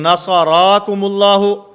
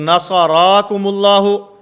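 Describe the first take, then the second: First: The opening vowels are drawn out long. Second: The opening vowels are drawn out long.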